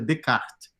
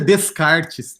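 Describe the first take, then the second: First: The written final letters are left silent. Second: The written final letters are sounded out. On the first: The speaker calls it right. "Pronuncia Descartes" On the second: The speaker calls it wrong. "não pronuncia Descartes"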